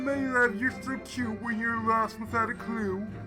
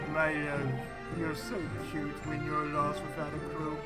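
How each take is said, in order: First: It is read in an exaggerated, put-on character voice. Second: It is read in an ordinary, plain voice.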